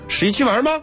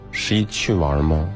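First: The question sounds eager and upbeat. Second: The question sounds reluctant and unenthusiastic. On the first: The speaker wants to go on the trip. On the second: The speaker does not really want to go.

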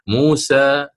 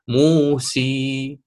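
First: The final vowel is an open a sound. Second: The final vowel is a full ee sound. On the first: "اللسان وكأنه مبسوط من الوسط، وهذا ما يسمى بوضع الراحة" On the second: "أريد أن أتي بها ياء خالصة"

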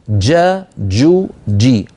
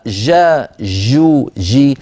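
First: The j sound starts with a full closure. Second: The j sound flows on without a closure. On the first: The speaker calls it right. "بدايتها انقفال تام للمخرج" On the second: The speaker calls it wrong. "ليس بداية المخرج مفتوح والهواء يتسرب والصوت يجري"

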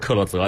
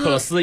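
First: The name ends with a voiced 'zeh' sound. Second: The name ends with a voiceless 'suh' sound. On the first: This is the German way to say the name. "其实你按照这个德语的发音，它应该是克洛泽" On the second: This is the English way to say the name. "但是你要按英文的发音"

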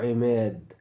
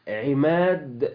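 First: The long vowel is raised toward 'i'. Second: The long vowel is a plain open 'a'. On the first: "يقولوا عماد" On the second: "فبدل ما يقولوا مثلا عماد هكذا"

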